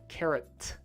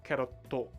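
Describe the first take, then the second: First: The word ends cleanly on the t sound. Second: An extra vowel is added after the final t. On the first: The speaker calls it right. "You want to say carrot" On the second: The speaker calls it wrong. "Not carrotto"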